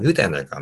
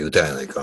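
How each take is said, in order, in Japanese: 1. 関西弁ですが、メロディーは東京っぽいです。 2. 関西弁ですが、荒っぽいヤクザ風の話し方です。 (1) "これちょっと東京っぽいと思うんですよね" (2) "ヤクザの人の関西弁ですかね"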